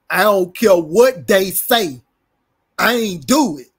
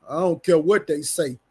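First: Loud, drawn-out mock denial; emphatic retold denial. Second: Said in the usual way. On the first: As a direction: imitate a loud, insistent denial, stretching the words. Repeats retold denial with force.

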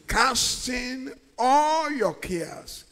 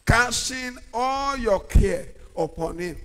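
First: Drawn out slowly, stress on "all"; slow call-and-response. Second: Said in the usual way. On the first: Shown as a demonstration. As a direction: lead the congregation slowly through "Casting all your cares".

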